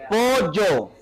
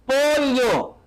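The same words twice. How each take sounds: First: "Pollo" as "po-yo", plain y. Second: "Pollo" as "po-lyo", pitched higher; pollo with elle. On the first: Teacher contrasting for class, "Pollo" as "po-yo". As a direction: drop the l from "Pollo", leaving y. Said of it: "ahora con la Y". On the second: Teacher asking class to listen, "Pollo" as "po-lyo". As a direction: press a palatal l into "Pollo". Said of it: "escucha, con la L". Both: Shown as a demonstration.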